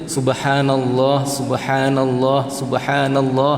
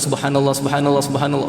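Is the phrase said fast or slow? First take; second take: slow; fast. First: The words are said slowly and carefully. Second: The words are rushed out very quickly. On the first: The speaker calls it right. "kena jaga" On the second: The speaker calls it wrong. "bukan ... laju sangat"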